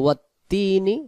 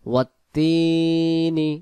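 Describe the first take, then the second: First: The vowel of the second syllable is short. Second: The vowel of the second syllable is lengthened. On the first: The speaker calls it wrong. "তখন ইয়া অক্ষরটা আদি হলো না" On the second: The speaker calls it right. "টান দিয়ে আদি করতে হবে"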